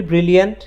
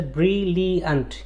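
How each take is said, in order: First: Said in the usual way. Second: ব্রিলিয়ান্ট broken into three syllables; teacher counting out the syllables of ব্রিলিয়ান্ট. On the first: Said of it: "কিন্তু আমি যদি বলি ব্রিলিয়ান্ট". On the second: Shown as a demonstration. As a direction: sound out ব্রিলিয়ান্ট in three separate beats, bri-li-ant. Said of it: "তিনটা syllable আছে".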